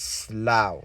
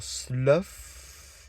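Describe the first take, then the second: First: The vowel rhymes with cow. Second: The vowel does not rhyme with cow. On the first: The speaker calls it right. "like a cow" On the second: The speaker calls it wrong. "you could get away with, or slough, maybe. But no"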